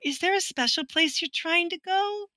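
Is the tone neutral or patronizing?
patronizing. The question is asked in a patronizing, sugary tone.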